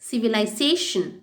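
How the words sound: It is said in a British accent. "First சொல்கிறதெல்லாம் British"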